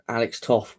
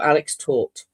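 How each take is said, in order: First: The name ends with an f sound. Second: The name ends with a t sound. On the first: The speaker calls it wrong. "is it Toff? Someone said it's pronounced differently" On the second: The speaker calls it right. "you pronounce it taught"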